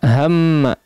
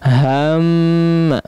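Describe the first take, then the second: First: The vowel goes straight into the m. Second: The vowel before the m is drawn out. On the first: The speaker calls it right. "langsung masuk" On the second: The speaker calls it wrong. "bukan begitu"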